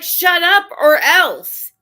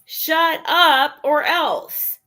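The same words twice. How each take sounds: First: Slow, louder, higher mock threat; slow ominous warning, each word weighted; menacing threat. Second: Slow, deliberate mock threat; slowed ominous warning, each word weighted. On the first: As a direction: spell out the hidden threat word by word. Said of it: "it's like". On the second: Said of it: "That's what it means".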